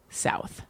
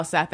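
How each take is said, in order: First: South whispered softly with a South African vowel; South African pronunciation. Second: Said in the usual way. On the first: Shown as a demonstration. Correcting her bad accent by showing South, whispered softly. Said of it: "They say". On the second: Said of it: "that is not how South Africans say South".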